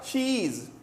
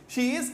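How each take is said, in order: First: The two words merge into one syllable. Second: The two words are said separately.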